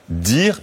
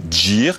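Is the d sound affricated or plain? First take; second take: plain; affricated. First: The d is a plain, clean stop. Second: The d has a hissing dz release. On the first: The older way of saying it. "on ne dit plus" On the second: The way people say it now. "on appelle ça des affrications"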